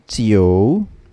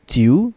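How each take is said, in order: First: An o sound is heard between i and u. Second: The vowel goes straight from i to u. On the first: The speaker calls it right. "you have to add an additional letter O in the middle" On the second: The speaker calls it wrong. "this will not be read as Jiu"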